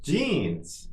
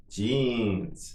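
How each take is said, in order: First: Somewhat higher, shorter take; quicker model. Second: Drawn-out word for learners; slow model. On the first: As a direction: say it a little quicker, pitch lifted. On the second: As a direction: say it slowly and evenly for repetition. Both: Shown as a demonstration. Teacher models word for repetition.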